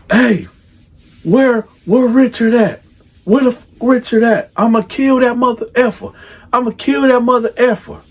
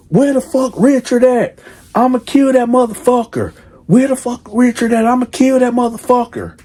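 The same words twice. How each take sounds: First: Raised, much higher voice, cussing softened; furious dad censoring himself; mock furious father. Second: Uncensored, much higher raised voice; mock furious father. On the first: Father calling the mother about their pregnant daughter, mock furious raised voice. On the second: Father calling the mother about their pregnant daughter, mock furious uncut rant. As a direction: say it the way the dad really did. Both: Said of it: "I'ma say it the way that he said".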